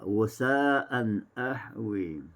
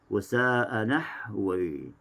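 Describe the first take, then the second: First: A glottal stop starts the second word. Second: The n sound runs straight into the second word.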